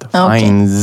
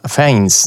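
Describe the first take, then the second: First: The name ends with a z sound. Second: The name ends with an s sound. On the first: The speaker calls it right. "det ska vara ett z på slutet" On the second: The speaker calls it wrong. "Jag uttalar hans efternamn fel dock"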